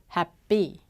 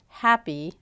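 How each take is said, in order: First: The stress is on the second syllable. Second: The stress is on the first syllable. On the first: The speaker calls it wrong. "the error is on the wrong syllable of the word" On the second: The speaker calls it right. "instead of happy"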